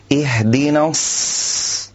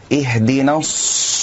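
First: الص with spread lips and clear hiss, slow; correct sad. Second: الص with rounded lips, wrong; rounded sad. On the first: Teacher modelling the correct ص. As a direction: say الص without rounding. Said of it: "فنقول". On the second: Teacher showing what not to do. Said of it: "لا أن نقول". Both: Shown as a demonstration.

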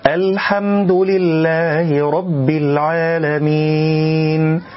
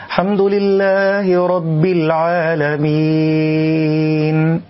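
First: Slow, higher chant with "الحمد" opening on a distinct hamza and full l; clear hamza and lam. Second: Higher, slow recitation starting straight on "حمد", article cut off; clipped first word. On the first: Reciter shows learners the correct opening, clear hamza and lam. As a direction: recite "الحمد" with its whole article audible. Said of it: "أن يفصح عن الهمز وأن يبين اللام".

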